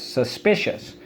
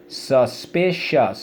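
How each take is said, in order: First: Said in the usual way. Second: "Suspicious" slowly as sus, pi, cious; syllable by syllable. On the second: Shown as a demonstration. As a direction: sound out "Suspicious" in separate beats. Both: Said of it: "So let's go".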